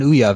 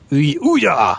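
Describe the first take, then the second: First: It is said plainly, in a normal voice. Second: It is said loudly, in an exaggerated voice. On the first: The speaker calls it wrong. "you're still not saying it right" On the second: The speaker calls it right. "I have to say it like I'm dubbing a Japanese character in a kung fu movie"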